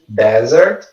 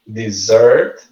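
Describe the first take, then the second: First: Desert as "DEZ-ert"; first-syllable stress. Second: Dessert as "di-ZERT"; second-syllable stress. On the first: Teacher contrasting lookalike words, desert stressed on DEZ. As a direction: hit DEZ at the start of desert. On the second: Teacher contrasting lookalike words, dessert stressed on ZERT. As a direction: put the weight on ZERT in dessert. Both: Shown as a demonstration. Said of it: "A stress syllable é diferente".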